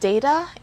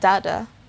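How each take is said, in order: First: The first vowel is a long A sound. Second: The first vowel is not a long A. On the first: "the long sound of it, on the first syllable, so it's day" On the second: "also another way of correctly pronouncing the word"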